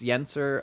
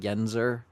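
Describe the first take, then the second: First: The middle consonant is a hissing s sound. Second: The middle consonant is a buzzing z sound. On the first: "it's Yenser" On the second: "A lot of people put the Z like Yenzer"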